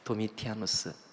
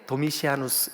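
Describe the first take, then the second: First: The third syllable is said with a 't' sound. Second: The third syllable is said with an 's' sound. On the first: This is the speaker's usual form of the name. "같은 이름이에요" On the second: Some people say the name this way. "발음이 조금 이렇게 다르게 도미시아누스 이렇게 하시는 분들도 있지만"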